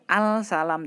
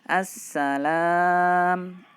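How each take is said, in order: First: The L sound is pronounced before the S. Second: The L merges into a doubled S sound. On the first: The speaker calls it wrong. "alnya tidak tidak kita baca al salam tidak" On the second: The speaker calls it right. "langsung ke sinnya"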